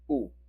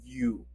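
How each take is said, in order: First: It is a plain 'oo' with no glide. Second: It starts with a y-glide, like 'yoo'. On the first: The speaker calls it right. "Very simple and neutral" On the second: The speaker calls it wrong. "not you"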